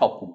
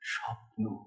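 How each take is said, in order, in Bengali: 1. এটি সহজ ও স্পষ্টভাবে বলা হয়েছে, কোনো অনুভূতি ছাড়া। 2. সুরটি কোমলভাবে গড়িয়ে যায়, স্বপ্নালু অনুভূতি নিয়ে। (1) "পরিষ্কার স্পষ্ট উচ্চারণ।" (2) "এই দুটো কোমল পর্দার উপর দিয়ে এই স্বরটা গড়িয়ে গেল"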